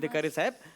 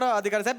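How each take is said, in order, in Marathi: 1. हे वाक्य हळू बोललं जातं. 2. हे वाक्य पटापट बोललं जातं. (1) "हे मी हळूच बोललोय" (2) "मी नॉर्मली असं बोलतो"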